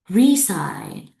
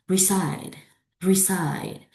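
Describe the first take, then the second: First: RESIDE wrongly as RE-side, RE loud; wrong first-syllable stress. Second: RESIDE as re-SIDE, falling; weight on SIDE in RESIDE; second-syllable stress. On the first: Teacher shows not that one, stress on RE. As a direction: punch RE in RESIDE by mistake. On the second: Teacher returns to the right version, stress on SIDE. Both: Shown as a demonstration. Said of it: "Not that one".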